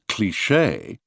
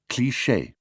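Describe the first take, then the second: First: Said with heavy stress on the final syllable. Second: Said with even French stress. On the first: This is how Americans say it. "the American pronunciation cliché" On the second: This is how the French say it. "the authentic French cliché"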